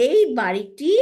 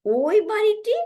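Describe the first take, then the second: First: Said in the usual way. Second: "ওই বাড়িটি" lifted much higher, pointing at that house; pointing far off. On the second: Shown as a demonstration. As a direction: throw "ওই বাড়িটি" up high as if pointing far away. ("ওই বাড়িটি" অনেক উঁচু সুরে, দূরের বাড়ি দেখিয়ে) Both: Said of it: "আমরা এইভাবে বলতে পারি".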